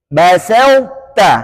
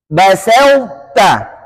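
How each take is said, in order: Both takes have the same delivery.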